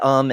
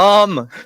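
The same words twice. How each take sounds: First: It is said quietly, as a filler. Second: It is said loudly, as a yell.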